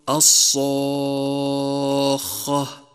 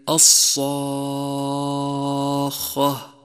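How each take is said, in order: No difference in how they are said.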